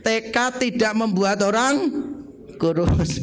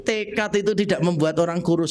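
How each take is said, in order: First: Slow, measured phrasing, holding off before "kurus"; lead a repeat-along. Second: Said in the usual way. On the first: Shown as a demonstration. Preacher has those not yet thin say it with him, slow and deliberate. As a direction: say it slowly for the crowd to repeat. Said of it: "sama-sama yang belum kurus ngomong dengan saya". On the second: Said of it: "Garis bawah ya".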